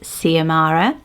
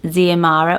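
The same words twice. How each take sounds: First: The name begins with an S sound. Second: The name begins with a Z sound. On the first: "or the S" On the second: "you either say it with the Z"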